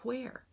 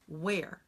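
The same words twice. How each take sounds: First: It starts with a breathy voiceless hw sound. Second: It starts with a plain voiced w sound. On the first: The speaker calls it right. "is correct pronunciation" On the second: The speaker calls it wrong. "that's using this sound"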